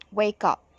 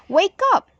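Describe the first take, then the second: First: Said in the usual way. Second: Exclamatory. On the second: Shown as a demonstration. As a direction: Wake up sung out high and bright with a rising end. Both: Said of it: "So you have to read it like this".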